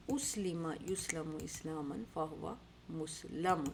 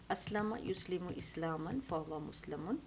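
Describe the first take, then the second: First: Slow drill, اسلم as "uslima", یسلم as "yuslamu"; passive forms recited. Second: Slow drill, اسلم as "aslama", یسلم as "yuslimu"; practice recitation. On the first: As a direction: split مسلم as "mus-lamun". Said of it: "یہاں مسلم آیا". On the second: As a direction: chain the forms from اسلم as "as-la-ma". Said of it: "تو ہم یہ practice کرتے ہیں". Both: Shown as a demonstration.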